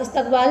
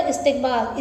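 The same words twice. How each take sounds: First: इस्तकबाल with an a after the t, "istaqbaal"; wrong pronunciation. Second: इस्तकबाल with an i after the t, "istiqbaal"; correct pronunciation. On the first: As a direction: say इस्तकबाल wrongly as "is-taq-baal". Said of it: "नहीं होता". (इस्तकबाल का ग़लत तलफ़्फ़ुज़, "त" पर ज़बर) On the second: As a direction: say इस्तकबाल as "is-tiq-baal". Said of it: "इस्तकबाल नहीं होता". (इस्तकबाल का सही तलफ़्फ़ुज़, "इस्तिक़बाल") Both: Shown as a demonstration.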